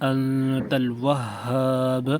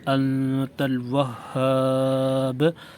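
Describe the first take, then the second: First: The final long vowel is held one count. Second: The final long vowel is held two counts. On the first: "एक गुना" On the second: "दो गुना"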